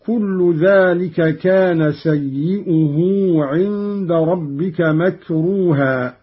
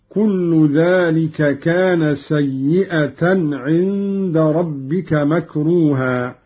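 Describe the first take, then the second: First: Said in the usual way. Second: سيئة as "sayyi'atan", a on the hamza then t; fatha and ta. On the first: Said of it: "قرأ قالون بفتح الهمزة". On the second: Shown as a demonstration. Teacher demonstrating Qalun's reading, سيئة with open hamza and ta. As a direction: slowly recite سيئة ending in -atan. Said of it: "بفتح الهمزة وتاء بعدها".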